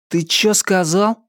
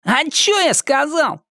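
First: Угрожающий вызов, выше обычного; грозно спросить, набычившись; угрожающе. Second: Наигранно невинно, очень высоко; театрально изобразить невинность; громко, как в театре. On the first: Виктор наезжает на обидчика. (с угрозой) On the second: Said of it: "Громко, как в театре". (театрально, напоказ) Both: A narrator's reading.

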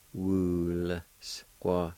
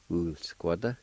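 First: "wool squat" drawn out with gaps; syllable-by-syllable pronunciation. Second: Said in the usual way. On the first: Shown as a demonstration. Teacher showing the L sound with W U, sounded out. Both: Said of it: "pronounce the L sound with the W U like this".

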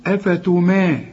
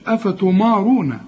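First: أفتما with a thin "mae", held; light meem. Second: أفتمارون with a dark, thick "maw"; wrong heavy meem. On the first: Teacher models it for the student, light meem. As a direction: keep ما in أفتما light and long. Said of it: "الميم أنا قلت لك في القرآن كلها مرققة". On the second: Teacher mimics the student's error, wrong heavy meem. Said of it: "برضو الميم ما تقولش". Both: Shown as a demonstration.

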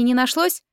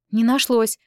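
First: «не нашлось» as a needling question, rising at the end. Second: «Не нашлось» as a statement, falling at the end; retort. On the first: («не нашлось» с вопросительной интонацией) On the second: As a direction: drop «нашлось» as a firm answer. Retort to sister's question. («Не нашлось» с утвердительной интонацией) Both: A narrator's reading.

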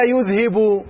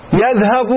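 First: "يذهب" said yudhhabu, first syllable with u; "يذهب" with rounded yu-: yudhhabu; opening vowel u. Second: "يذهب" said yadhhab, first syllable with a; "يذهب" with open ya-: yadhhab; opening vowel a. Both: Shown as a demonstration. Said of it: "بالضم أو تبدأ بالفتح".

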